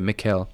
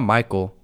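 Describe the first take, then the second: First: The first vowel sounds like in 'mix'. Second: The first vowel sounds like in 'my'. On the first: The speaker calls it right. "That's how you say it" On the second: The speaker calls it wrong. "it's not Michael"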